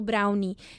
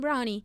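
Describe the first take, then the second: First: The word is said in a forced, careful way. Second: The word is said in a relaxed, natural way. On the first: "Eu não falo brownie. Se eu falar brownie, eu tenho que forçar" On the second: "O meu natural é falar assim"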